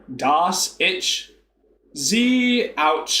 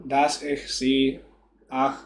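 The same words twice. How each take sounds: First: Exaggerated Texan German, "ich" as "itch"; Texas accent. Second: Slow, halting "Dass ich sie ach"; attempted German. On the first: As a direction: mangle the German in a Texas drawl. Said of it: "I'll put, like, a Texas accent on". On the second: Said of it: "not used to saying". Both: Shown as a demonstration.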